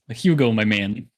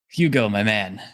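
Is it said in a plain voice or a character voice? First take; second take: character voice; plain voice. First: It is said in Gregor's character voice. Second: It is said without Gregor's character voice.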